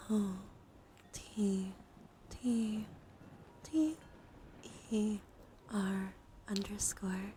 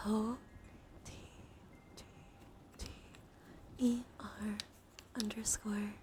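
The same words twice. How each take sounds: The two takes are said the same way.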